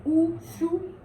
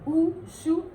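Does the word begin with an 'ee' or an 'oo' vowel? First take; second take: oo; oo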